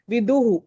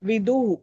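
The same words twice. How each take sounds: First: The vowel before the h is kept short. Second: The vowel before the h is kept short.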